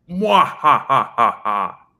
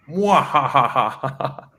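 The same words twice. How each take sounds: First: High cackling villain laugh; mwah-ha-ha like a cartoon villain; evil laugh. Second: Light villain cackle; little evil laugh. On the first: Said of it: "give an evil laugh, like". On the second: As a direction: give a small evil mwah-ha-ha. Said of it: "a little evil laugh, like". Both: Shown as a demonstration.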